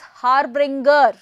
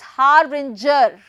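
First: The g is a hard g sound. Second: The g is a soft j sound. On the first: The speaker calls it wrong. "using G as G sound" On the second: The speaker calls it right. "the actual pronunciation is harbinger, as if we have ginger"

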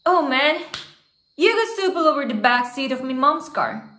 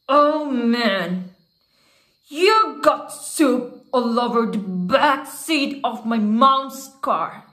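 First: It is read in a plain, natural voice. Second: It is voiced as an angry man in prison.

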